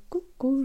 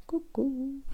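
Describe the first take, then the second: First: High little gnome greeting; playful gnome puppet voice. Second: Soft unvoiced whisper; tiny whispered coucou; whispered hello. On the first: Pretend. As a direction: chirp hello as a tiny gnome. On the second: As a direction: breathe the greeting as a secret. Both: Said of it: "Si je vous fais la main gnome".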